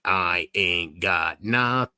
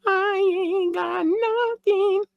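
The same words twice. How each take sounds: First: Low, very slow drawl; low drawn-out voice. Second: Very high, slow falsetto; high drawn-out falsetto. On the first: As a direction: stretch every word out down low. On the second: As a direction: stretch every word out way up high. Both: Pretend. Same line replayed in two voices.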